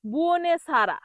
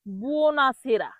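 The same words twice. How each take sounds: First: বুওনেসারা with "ne-sa" for "na-se"; common mispronunciation. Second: বুওনাসেরা drawn out as "buo-na-se-ra"; slow model বুওনাসেরা, "na" then "se"; correct pronunciation. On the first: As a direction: say বুওনেসারা as "buo-ne-sa-ra". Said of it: "অনেকেই ভুল করে এটাকে বলে". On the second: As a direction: say বুওনাসেরা slowly with "e" after s. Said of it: "সঠিক হলো". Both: Shown as a demonstration.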